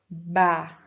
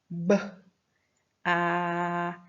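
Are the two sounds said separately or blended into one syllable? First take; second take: blended; separately. First: The two sounds are joined into one syllable. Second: The two sounds are said apart with a pause. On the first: "Depois a gente vai juntar os dois" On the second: "primeiro o som fônico do B e depois do A"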